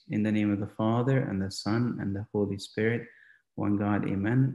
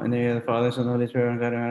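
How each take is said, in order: First: It is said slowly and deliberately. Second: It is rattled off fast.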